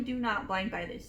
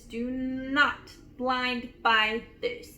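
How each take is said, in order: First: Said in the usual way. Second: Slow, weighty stress on every word of "Do not blind buy this"; emphatic warning. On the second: Real, not acted.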